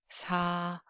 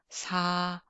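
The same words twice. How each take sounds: First: The s is soft and gentle, with little pressure. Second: The s is soft and gentle, with little pressure.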